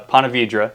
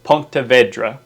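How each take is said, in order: First: The name is said in an anglicized way. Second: The name is said closer to the Spanish. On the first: The speaker is from the area. "is what we call it here" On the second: The speaker is not from the area. "which is probably the correct way to say it, people will know that you're not from here"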